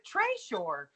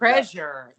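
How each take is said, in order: First: The word is said an odd, unusual way. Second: The word is said the ordinary, familiar way. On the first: The speaker calls it wrong. "such a surprising pronunciation" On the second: The speaker calls it right. "that makes more sense"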